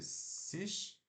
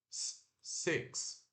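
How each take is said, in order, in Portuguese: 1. Ela é lida com sons de letras do português. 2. Ela é dita com pronúncia do inglês. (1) "como se fosse sis" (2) "mas se pronuncia S e curto K S"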